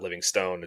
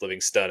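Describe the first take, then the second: First: The last syllable is a full 'stone'. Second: The last syllable is reduced to a weak 'stun'. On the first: The speaker calls it wrong. "and not Livingstone" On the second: The speaker calls it right. "it's Livingston"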